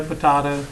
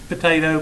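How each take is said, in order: First: "potato" said po-TAH-to; potato with broad A. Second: "Potato" said po-TAY-to; potato with long A. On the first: Teacher playing with a name's pronunciation, "potato" as po-TAH-to. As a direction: say "potato" with the vowel of father. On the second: Teacher playing with a name's pronunciation, "Potato" as po-TAY-to. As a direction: say "Potato" with the vowel of day. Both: Shown as a demonstration.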